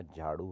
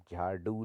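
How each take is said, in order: First: Said in the usual way. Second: झाड़ू said with a stopped du; no flap in झाड़ू; hard d. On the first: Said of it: "होता है". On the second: Shown as a demonstration. Teacher shows the error, झाड़ू with hard ड. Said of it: "नहीं होता".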